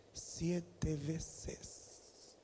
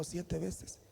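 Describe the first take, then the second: First: SIETE VECES drawn out slowly, much softer; hushed emphasis. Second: Said in the usual way. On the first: Shown as a demonstration. Preacher stressing how often mother separated them, hushed emphasis. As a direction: let SIETE VECES sink in, soft and stretched.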